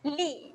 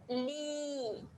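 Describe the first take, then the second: First: The vowel is held for one short beat. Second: The vowel is held for two beats. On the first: "bacaan pendek" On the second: "panjangkan dua harakat"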